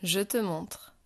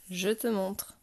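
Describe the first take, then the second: No difference in how they are said.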